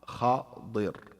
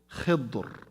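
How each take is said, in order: First: It has 'a' after kh, 'i' after d. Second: It has 'i' after kh, no vowel after d. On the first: "with كسر الضاد uh, and فتح الخاء" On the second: "with كسر الخاء وتسكين الضاد"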